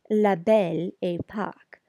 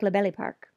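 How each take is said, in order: First: Each word is pronounced carefully and separately. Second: The words run together quickly, like 'belly park'. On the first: "it's generally pronounced" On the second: "when said quickly, it can sound like"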